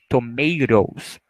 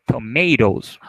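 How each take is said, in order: First: Slow "Tomatoes" with the middle t tapped like a Portuguese R, to-mei-ros; t sounds like R. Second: Said in the usual way. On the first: Shown as a demonstration. Teacher showing students "Tomatoes" slowly, the t tapped like R. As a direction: stretch out "Tomatoes", flapping the t into a quick R. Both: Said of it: "Como se fosse esse som de R".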